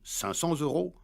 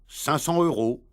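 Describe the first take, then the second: First: A linking z sound comes before the last word. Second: No linking sound comes before the last word. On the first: The speaker calls it right. "On doit dire" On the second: The speaker calls it wrong. "Ils disent"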